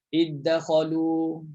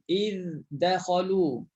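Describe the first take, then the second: First: The first consonant merges directly into a doubled d. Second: The first consonant is pronounced clearly before the d. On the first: This follows the Hamzah reading tradition. "kalau baca hamzah, senang je, masuk terus" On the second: This follows the Hafs reading tradition. "Pastikan dal masuk ke lot dia"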